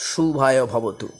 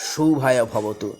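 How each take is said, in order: No difference in how they are said.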